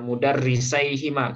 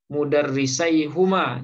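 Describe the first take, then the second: First: The vowel after the h is i. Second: The vowel after the h is u. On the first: The speaker calls it right. "maka huruf ha-nya itu kita harkati kasroh" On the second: The speaker calls it wrong. "kalau dibaca dhammah"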